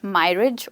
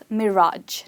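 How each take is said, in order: First: The stress is on the first syllable. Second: The stress is on the second syllable. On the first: The speaker calls it wrong. "not mirage" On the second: The speaker calls it right. "which is pronounced as mirage"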